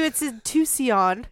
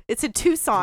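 First: "Tucson" said slowly as too-see-on; "Tucson" with an extra "ee" in the middle; mispronounced Tucson. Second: Said in the usual way. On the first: Shown as a demonstration. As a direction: stretch "Tucson" into three syllables, TOO-see-on. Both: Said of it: "you couldn't pronounce it?".

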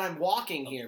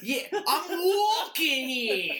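First: Said in the usual way. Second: Loud, higher, drawn-out mock New Yorker; hammed-up New York shout through laughter; New York accent. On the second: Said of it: "comes out all New Yorkie".

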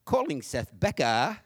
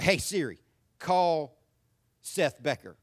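First: Slow mock British GPS voice; British woman. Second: Said in the usual way. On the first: British GPS assistant answering his call command, mock British accent. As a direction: put on a drawn-out British accent, dropping the R. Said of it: "to a British woman". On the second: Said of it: "I'll say".

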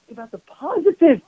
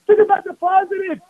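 First: Said in the usual way. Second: "Think" pushed higher and louder on the second go; emphatic repeat. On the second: Shown as a demonstration. Rabbi urging the congregation, repeating it higher and louder. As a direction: drive the advice home with force.

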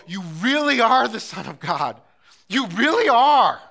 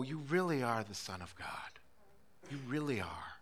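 First: Loud, higher, slowing proclamation of faith; loud exclamation. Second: Softer, lower, reverent murmur of faith; hushed awe. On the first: Believers crying out loud to God in wonder. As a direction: proclaim it like a shout of worship. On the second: Preacher quietly confessing faith to God, hushed. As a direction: breathe it out in quiet wonder. Same words repeated softly. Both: Acted.

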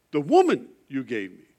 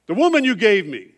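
First: Said in the usual way. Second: Loud, high, accusing cry of blame; Adam pointing at the woman, loud and high; loud blaming Adam. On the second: Retold or imitated. Adam blames Eve before God, a loud accusing cry. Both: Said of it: "what does Adam do".

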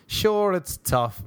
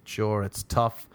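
First: High, slow, drawn-out mock lament. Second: Said in the usual way. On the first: Comedian mocking the hardship of his lifestyle, mock lament. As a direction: stretch it out in hammed-up sorrow.

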